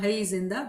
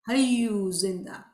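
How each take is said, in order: First: The first word is shortened to one syllable. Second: The first word is said with two syllables. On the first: The speaker calls it wrong. "you hear in Jamaat Khana" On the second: The speaker calls it right. "but the right pronunciation is Hayyu Zinda"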